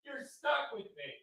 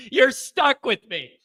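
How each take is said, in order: First: Very soft, high little repeat; hushed aside. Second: Slow, high, full-voiced announcement; emphatic declaration. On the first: Host repeating it to viewers, hushed aside. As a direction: say it tiny and far quieter. Quiet repeat of his declaration. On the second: Host telling viewers they're stuck, emphatic declaration. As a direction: declare it slowly to the crowd. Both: Real, not acted.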